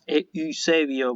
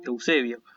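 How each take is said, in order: First: The name begins with 'e' followed by 'ü'. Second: The name begins with the diphthong 'eu'. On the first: The speaker calls it wrong. "por eso no decimos Eusebio" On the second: The speaker calls it right. "decimos Eusebio"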